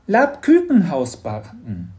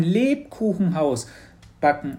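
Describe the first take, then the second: First: "Labkükenhaus" with ü in place of u; slip in pronunciation. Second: Said in the usual way. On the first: Acted. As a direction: slowly say "Labkükenhaus" in the creature's fronted vowels.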